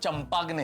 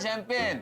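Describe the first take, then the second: First: It starts with ch and sounds every letter. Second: It starts with sh and ends in pen. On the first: The speaker calls it wrong. "इसका मतलब ये नहीं कि उसका उच्चारण चंपाग्ने है" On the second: The speaker calls it right. "वो शैंपेन होती है"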